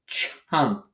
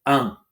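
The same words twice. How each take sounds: First: Said in the usual way. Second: "Ch-unk" with the ch alone, pause, then unk; slow sounding out. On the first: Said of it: "Sound out as you need to". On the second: Shown as a demonstration. Teacher helping pupils sound out, slow and segmented. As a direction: break "Ch-unk" after the first sound. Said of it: "Say it slowly".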